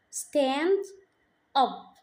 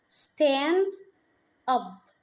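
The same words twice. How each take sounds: The two takes are said the same way.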